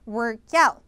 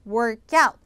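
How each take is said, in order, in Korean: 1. 강세는 두 번째 단어에 있어요. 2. 강세는 두 번째 단어에 있어요.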